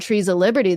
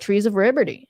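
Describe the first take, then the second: First: It is said in plain English with clear L sounds. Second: It is said in a Japanese accent without L sounds. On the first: "if they said trees of liberty" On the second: "they'd be like"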